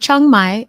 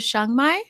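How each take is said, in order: First: The name begins with a 'ch' sound. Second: The name begins with an 'sh' sound. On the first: The speaker calls it wrong. "Is that how you say it?" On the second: The speaker calls it right. "C H is S H"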